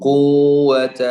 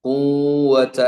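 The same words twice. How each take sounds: Both takes have the same delivery.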